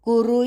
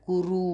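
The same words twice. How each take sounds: First: Both vowels are short. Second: The vowels are drawn out long. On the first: The speaker calls it right. "कु ह्रस्व रु ह्रस्व" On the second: The speaker calls it wrong. "एक गलत उच्चार"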